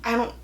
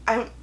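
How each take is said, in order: Both takes have the same delivery.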